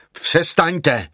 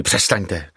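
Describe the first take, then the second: First: High, urgent cry; raised pitch, sharp narrated exclamation. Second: Said in the usual way. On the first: A narrator's reading. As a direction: cry out to cut someone off. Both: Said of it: "vykřikl jsem na ní".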